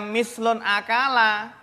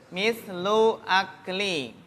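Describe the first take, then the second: First: The phrase ends with an 'a' vowel, 'n' added. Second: The phrase ends with an 'i' vowel, no 'n'. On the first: The second word is read as a past-tense verb. The speaker calls it wrong. "Jangan dibaca mislun akala. Salah ya" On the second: The second word is a noun in a possessive construction. The speaker calls it right. "Bacanya bagaimana?"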